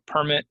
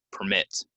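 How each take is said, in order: First: "permit" as PER-mit, high first syllable; noun stress. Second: "permit" as per-MIT; verb stress. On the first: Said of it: "If it's a noun". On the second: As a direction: punch the second syllable of "permit". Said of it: "If it's a verb". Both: Shown as a demonstration.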